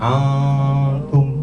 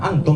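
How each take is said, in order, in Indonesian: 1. Bunyi n-nya samar, berdengung, dan ditahan lebih lama. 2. Bunyi n-nya pendek dan jelas diucapkan. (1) "Suaranya samar, kemudian didengung, didengungkan, ditahan tiga harokat" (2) "membacanya bukan antum"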